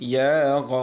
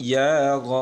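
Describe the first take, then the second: Both takes have the same delivery.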